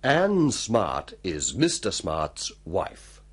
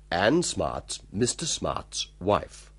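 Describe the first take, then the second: First: It is said slowly and carefully. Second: It is said fast, conversationally.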